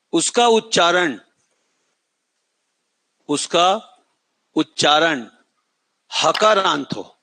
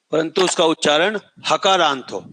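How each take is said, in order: First: उसका उच्चारण said slowly for writing; slow dictation pace. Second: Said in the usual way. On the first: Shown as a demonstration. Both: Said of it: "फिर से बोल रहा हूं".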